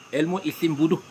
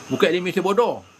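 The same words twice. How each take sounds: First: "bodoh" said with u vowels, bu-duh; correct name shown. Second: "bodoh" said with o vowels, bo-doh; wrong name shown. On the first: (sebut "bodoh" dengan bunyi u, bu-duh) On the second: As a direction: show the wrong reading, "bodoh" as bo-do. (sebut "bodoh" dengan bunyi o, bo-doh) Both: Shown as a demonstration.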